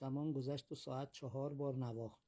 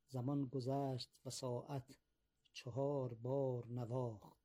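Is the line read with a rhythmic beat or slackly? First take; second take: slackly; rhythmic. First: It is read slackly, with no clear metrical beat. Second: It is read with a clear, steady metrical beat. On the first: The speaker calls it wrong. "موسیقی شعر اصلا شنیده نمیشه به این شکلی که من خوندم" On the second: The speaker calls it right. "این مفاعلون فعلاتون مفاعلون فعلات در این وزن این رو گفته"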